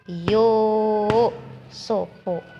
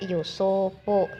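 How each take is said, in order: First: The first vowel is held long. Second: The first vowel is held short. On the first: The speaker calls it right. "Dua harakat" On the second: The speaker calls it wrong. "jangan dibaca Yusufu"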